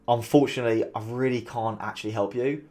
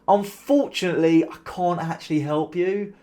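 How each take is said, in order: First: The tone is sincere and apologetic. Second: The tone is sarcastic and smug.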